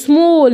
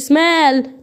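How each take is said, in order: First: The vowel is a rounded 'aw' sound. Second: The vowel is an open 'ah' sound. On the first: The speaker calls it right. "اقول سمول" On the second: The speaker calls it wrong. "ما اقولش"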